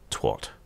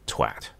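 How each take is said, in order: First: The vowel sounds like the o in hot. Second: The vowel sounds like the a in cat. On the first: The speaker calls it wrong. "not twat" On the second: The speaker calls it right. "That's an A in the middle of the word twat. So you pronounce it twat"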